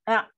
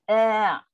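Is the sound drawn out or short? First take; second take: short; drawn out. First: The sound is said quickly and cut short. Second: The sound is said slowly and drawn out. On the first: The speaker calls it wrong. "Kalau cepat" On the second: The speaker calls it right. "dia kena sebut secara perlahan. Disebut dengan perlahan, suara macam ditarik"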